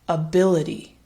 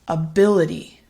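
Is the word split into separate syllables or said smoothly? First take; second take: smooth; smooth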